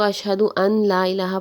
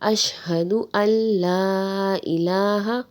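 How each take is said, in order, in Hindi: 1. 'n' को 'l' से पहले साफ़ बोला जाता है। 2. 'n' बिना नासिक्य ध्वनि के 'l' में मिल जाता है। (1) "अक्सर लोग इसको ... पढ़ते हैं, ये गलत है" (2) "इसको इस तरह से पढ़ा जाएगा"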